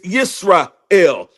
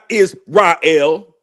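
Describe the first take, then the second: First: The name begins with a 'y' sound. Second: The name begins with a plain 'i' vowel. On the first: The speaker calls it right. "It's Yisrael" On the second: The speaker calls it wrong. "not Israel"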